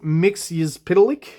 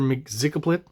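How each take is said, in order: First: The name ends in a 'lik' sound. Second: The name ends in a 'plit' sound. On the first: This is the official pronunciation. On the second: This is the speaker's habitual way of saying it. "I've always said"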